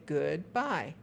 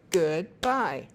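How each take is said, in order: First: Said in the usual way. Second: Goodbye said Good-bye, both syllables loud and separate; split into syllables. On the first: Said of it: "listen to you say". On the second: Shown as a demonstration. Parent teaching a child to clap syllables, loud and separate. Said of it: "Clap on each syllable".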